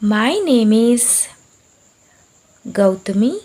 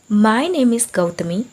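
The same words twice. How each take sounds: First: It is said very slowly. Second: It is said at medium speed.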